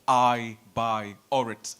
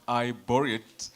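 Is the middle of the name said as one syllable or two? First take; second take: two syllables; one syllable. First: The middle sounds like two syllables, "buy or". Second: The middle sounds like one syllable, "bore". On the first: The speaker calls it right. "called I buy or it" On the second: The speaker calls it wrong. "not I bore it"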